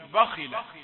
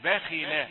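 First: The kha and ba sound heavy and thick. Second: The kha and ba sound light and thin. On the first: The speaker calls it wrong. "يعلي درجة التفخيم فيقول باخلة" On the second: The speaker calls it right. "لا هي باء ولا هي خي، إنما باخيلة"

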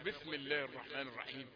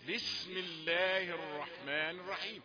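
First: The s in bism sounds close to th. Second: The s in bism is a sharp hiss. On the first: The speaker calls it wrong. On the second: The speaker calls it right.

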